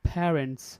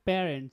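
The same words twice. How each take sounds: First: The first sound has a strong puff of air. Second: The first sound has no strong puff of air. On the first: "এখানে stress দিলে কি হবে" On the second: "normally আমরা বলতাম"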